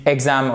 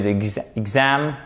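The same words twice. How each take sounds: First: "exam" wrongly stressed on the first syllable, EX-am. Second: "d'exam" stressed on the second syllable, ex-AM; light "ex", strong "am" in "d'exam". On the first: Teacher showing learners the mistake, "exam" stressed as EX-am. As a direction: hit the "ex" of "exam", leave "am" weak. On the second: Teacher correcting the mistake for learners, "d'exam" stressed as ex-AM. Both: Shown as a demonstration. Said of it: "Si vous ne faites pas l'accent tonique correctement".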